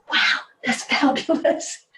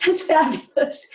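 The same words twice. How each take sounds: First: Breathy, slow, hushed admiration; hushed wow. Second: Higher, laughing through it; laughing praise. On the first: To a panel presenter, an awed hushed wow. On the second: Repeating praise to the presenter with a laugh. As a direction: let a laugh lift the praise. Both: Retold or imitated.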